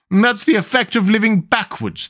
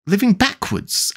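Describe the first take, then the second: First: High, gentle queen explaining; kindly. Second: Slow, high, incredulous question; great astonishment. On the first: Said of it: "the Queen said kindly". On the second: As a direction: echo it in amazement, drawn out. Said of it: "Alice repeated in great astonishment". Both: A narrator's reading.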